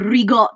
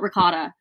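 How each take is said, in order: First: It is said with an exaggerated Italian accent. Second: It is said with a plain American accent. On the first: The speaker is putting on a pretentious foreign flair. The speaker calls it wrong. "do not go around New York being like, oh, the rigot" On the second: The speaker is saying it naturally without pretense. The speaker calls it right. "like call it ricotta"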